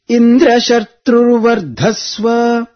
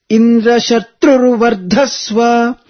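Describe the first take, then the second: First: The pitch is high on 'dra' but low on 'dha'. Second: The pitch rises on both 'tru' and 'dha'. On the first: Let the son grow up with Indra as his killer. The speaker calls it wrong. "the Sanyuktakshara Dra is up, but Vardhasva Dva is down, Anudatta" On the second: Let the son grow up to kill Indra. The speaker calls it right. "both are chanted upwards, the Swarita intonation"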